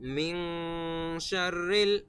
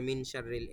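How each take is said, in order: First: The nasal sound is held before the next word. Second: The nasal sound is said quickly and not held. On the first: The speaker calls it right. "গুন্না আছে" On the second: The speaker calls it wrong. "অনেকে স্পিডে বলে ফেলে"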